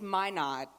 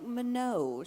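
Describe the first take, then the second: First: The name is said in a plain, non-French way. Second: The name is said in a French-sounding way. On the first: The speaker calls it right. "you might want to get that right before you go" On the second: The speaker calls it wrong. "I made you all very fancy and French"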